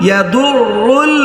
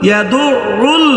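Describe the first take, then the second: No difference in how they are said.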